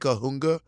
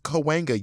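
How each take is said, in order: First: The middle syllable sounds like 'hoong'. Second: The middle syllable sounds like 'hwen'. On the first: The speaker calls it wrong. "If you say Kahunga" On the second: The speaker calls it right. "I didn't know it was pronounced Cahuenga"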